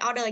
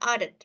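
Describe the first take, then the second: First: The word ends without a final d sound. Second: The word ends with a final d sound. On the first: The speaker calls it wrong. "Không phải order nha" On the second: The speaker calls it right. "Bởi vì nó bởi vì ở đây nó là đuôi ed rồi nha"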